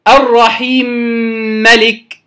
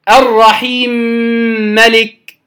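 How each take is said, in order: The two takes are said the same way.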